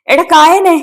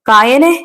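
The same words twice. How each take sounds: First: Very high, urgent cry; desperate scream. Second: Raised, rising call to a friend; crying out. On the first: Man screams to rouse his dead friend, desperate cry. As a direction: cry out desperately, pitch soaring. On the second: Man calls his fallen friend, rising cry. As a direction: call out, lifting the end. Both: A narrator's reading. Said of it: "Vijayaraj അലറി വിളിച്ചു".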